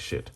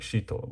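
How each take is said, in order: First: The word ends abruptly on a consonant. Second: The word ends with a final vowel sound. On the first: This is the casual nickname reading of the title. "but we say shit" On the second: This is the proper reading of the title. "the actual like pronunciation pronunciation is Shito"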